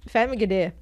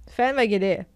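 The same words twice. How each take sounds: The two takes are said the same way.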